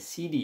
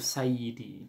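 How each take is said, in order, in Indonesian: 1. Gelar itu dipercepat menjadi dua suku kata. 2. Semua suku kata dari gelar itu diucapkan lengkap. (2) "Sidi itu Sayyidi"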